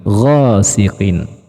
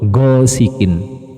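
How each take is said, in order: First: The first consonant is a flowing, continuous gh. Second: The first consonant is a held-back, stopped g. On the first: The speaker calls it right. "Bunyi atau suaranya tuh ngalir" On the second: The speaker calls it wrong. "kesalahan yang sering terjadi itu seperti apa? Go, go sikin... suaranya tertahan"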